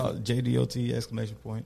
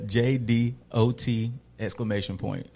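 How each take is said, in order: First: It is said fast. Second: It is said slowly.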